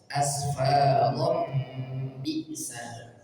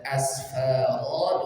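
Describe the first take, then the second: First: A nasal m links into the next word. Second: The word stops on a long open vowel. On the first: The reciter continues without pausing. "kalau di wasal dibaca asfarom bisa, didengungkan dua harakat" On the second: The reciter pauses at this word. "kalau di waqaf dibaca asfaro dua harakat"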